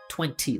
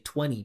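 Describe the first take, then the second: First: The second T is clearly pronounced. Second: The second T is dropped. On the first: The speaker calls it wrong. "instead of twenty" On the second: The speaker calls it right. "if you don't pronounce the second T in twenty. You just say twenty"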